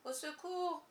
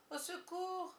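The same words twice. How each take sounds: First: Higher, faint call for help; faint cry for help. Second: The call fading away; faint cry for help. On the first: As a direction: call out weakly from the water. (faible appel au secours, plus aigu) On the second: (second appel plus aigu et faible) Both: A narrator's reading. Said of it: "un faible cri s'éleva".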